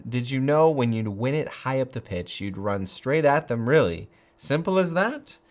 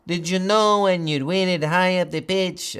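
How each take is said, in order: First: Said in the usual way. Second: Put-on Keane quoted by mistake in a light Latin American accent, higher; an accidental hint of Latin American accent; slipped Latin American accent. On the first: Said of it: "I don't know what I'm doing here". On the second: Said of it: "I'm so South American, Latin American today".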